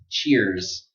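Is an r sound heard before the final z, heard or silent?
heard. An r sound is heard before the z. "say cheer and then z"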